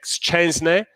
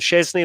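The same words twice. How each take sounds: First: The name is said with Polish sounds. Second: The name is said with simplified English sounds. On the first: This is the technically correct form. "technically it's Wojciech Szczęsny" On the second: This is the form everyone else uses. "just call him Szczęsny like everyone else"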